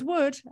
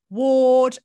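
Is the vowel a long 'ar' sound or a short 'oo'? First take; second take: oo; ar. First: The vowel is a short 'oo' sound. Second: The vowel is a long, open 'ar' sound. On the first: This is how other people say the name. The speaker calls it wrong. "because everyone goes Wood" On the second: This is how the name's owner says it. The speaker calls it right. "I've spent all my life going Ward"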